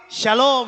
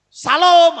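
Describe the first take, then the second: First: Shalom with a smooth sh, falling; elegant pronunciation. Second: Salom loud and heavy, Javanese-accented; thick Javanese accent. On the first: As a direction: say "shalom" unforced, as sha-lom. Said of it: "akan lebih elegan ya". (shalom diucapkan elegan dengan bunyi sy) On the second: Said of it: "aku kok medok banget gitu". (Salom dengan logat Jawa medok, keras) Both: Shown as a demonstration.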